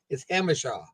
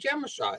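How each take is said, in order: First: The name begins with an H sound. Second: The name begins with a J sound. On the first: The speaker calls it right. "That sounds like an H" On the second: The speaker calls it wrong. "I used to say it was Jemashaw"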